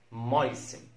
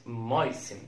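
No difference in how they are said.

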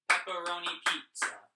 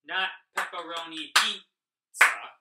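First: "Pepperoni pizza" louder, run together in rhythm; a bit faster. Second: "pepperoni pizza" loud and dragged, with a gap inside "pizza"; too slow. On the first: Teacher showing the right rhythm for "Pepperoni pizza", a bit faster. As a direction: say "Pepperoni pizza" briskly, without dragging "pizza". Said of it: "we are going a little bit faster". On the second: Teacher showing how not to say "pepperoni pizza", loud and dragged out. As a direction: break "pizza" into two slow, separate beats. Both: Shown as a demonstration.

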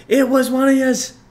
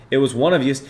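First: Much higher and louder, cartoonish New York "yous"; squeaky put-on voice. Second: Said in the usual way. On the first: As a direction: squeal "yous" like a silly caricature. Repeating line in put-on voice.

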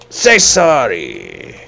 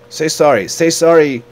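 First: Loud, slow, falling mock-angry order; drawn-out demand. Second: High, loud, repeated order; mock angry demand. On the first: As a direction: stretch the order out, loudly. Last, drawn-out demand for apology. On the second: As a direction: demand an apology, loudly. Demands apology from game character.

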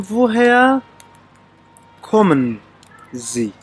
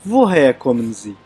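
First: "وۆ هەیە کۆمن زی" said word by word with long pauses; word-by-word demo. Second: Said in the usual way. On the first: Shown as a demonstration. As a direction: teach "وۆ هەیە کۆمن زی" in separated pieces, pausing before each. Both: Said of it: "دەبێ بڵێن".

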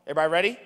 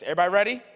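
First: Said in the usual way. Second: Louder call to crowd. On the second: Real, not acted. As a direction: call out again, pushing for more response. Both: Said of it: "Oh, that's forty percent of us".

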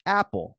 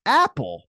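First: Put-on higher-pitched child's simple answer; imitating nephew. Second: High, loud disbelieving question; incredulous echo. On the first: Nephew naming his favorite snack to uncle, lightly imitated child. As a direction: lightly voice a small kid answering. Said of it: "He's like". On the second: Retold or imitated. Uncle reacting to nephew's snack choice, loud incredulity. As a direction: throw the word back in mock disbelief. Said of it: "I'm like".

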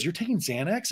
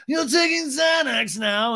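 First: Soft, acted question with a rising end; restrained imitated query. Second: High, drawn-out imitated screech; hammed-up scandalised cry; mock outrage. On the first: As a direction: ask it in mild mock disbelief. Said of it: "Andy goes". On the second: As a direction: stretch it out high and appalled. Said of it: "Lisa's like".

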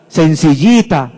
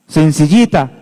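No difference in how they are said.

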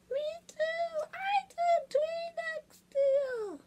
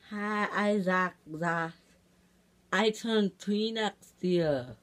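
First: Very high, slow, soft falsetto; tiny squeaky child. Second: Put-on slow toddler voice at usual pitch; toddler talk. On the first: Pretend. Second baby echoing the first, tiny high voice. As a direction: squeak it out slowly as a tiny tot. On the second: Baby introducing himself to viewers, slow toddler talk. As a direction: announce it slowly like a little child.

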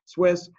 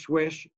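First: "Swiss" said crisply with a clear s ending, a bit louder; firm correction, "Swiss" ending on a sharp hiss; corrected Swiss. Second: Swiss said as "Swish", the ss blurred into sh; slip to Swish. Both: Real, not acted. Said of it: "not Swish".

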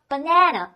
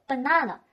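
First: American "banana", middle a as in "cat"; American accent. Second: British "banana", middle a a long "ah"; British accent. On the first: Teacher recaps both accepted readings, American accent first. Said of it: "这是美国人习惯的说法". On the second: Teacher recaps both accepted readings, British accent second. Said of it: "在英式发音当中呢". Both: Shown as a demonstration.

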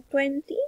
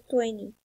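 First: "twenty" with the second T sounded; careful British T in "twenty". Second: "twenty" with the second T dropped; American silent T in "twenty". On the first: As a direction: say "twenty" with a clear T after N. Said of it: "la pronunciación es británica". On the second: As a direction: say "twenty" as "twenny". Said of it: "es la pronunciación americana". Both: Shown as a demonstration.

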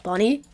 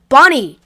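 First: Said in the usual way. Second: Loud shout of his name. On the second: Acted. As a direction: yell across the room. Calling for missing friend.

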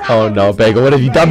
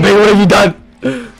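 First: Low-pitched mock lament; low dismay. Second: Higher, mock-distraught cry; rising dismay. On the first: Player reproaching Bagel for a mistake, low mock dismay. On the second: Player reproaching Bagel once more, high mock dismay. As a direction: lift it into a wail of reproach.

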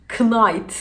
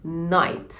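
First: Knight with the K sounded; wrong knight. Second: Night said with a silent K; correct night. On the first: Teacher mocks wrong Knight with a K. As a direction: say Knight with a hard K before the n. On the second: Teacher models night without the K. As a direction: drop the K, just night. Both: Shown as a demonstration. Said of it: "Knight değil, night".

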